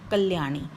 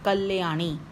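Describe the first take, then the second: First: The l joins the y with no vowel between. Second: A short a vowel follows the l sound. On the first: The speaker calls it right. "बोला भी आधा जा रहा है" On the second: The speaker calls it wrong. "ये हम ऐसे नहीं बोल रहे"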